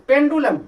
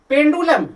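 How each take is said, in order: No difference in how they are said.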